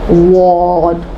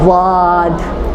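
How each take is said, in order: First: The lips are rounded, giving an o-like vowel. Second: The mouth stays open with a clear a vowel. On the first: The speaker calls it wrong. "मुँह गोल करके तफ़ख़ीम मुँह का नहीं बनेगा, वाद ऐसा नहीं बनेगा" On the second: The speaker calls it right. "ये होगा वाद वाद वाद। देखो ओ नहीं उठा रही हूँ, आ उठा रही हूँ"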